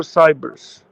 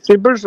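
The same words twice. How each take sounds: First: "Cybers" said with a long i, like "sigh-berz"; long-i pronunciation. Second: "Cybers" said with a short i, like "sibbers"; short-i pronunciation. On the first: Co-host offering a name's second reading, long-i "Cybers". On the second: Co-host offering a name's first reading, short-i "Cybers". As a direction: say "Cybers" as SIB-erz. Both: Shown as a demonstration. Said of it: "How would you pronounce it?".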